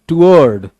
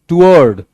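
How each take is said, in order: The two takes are said the same way.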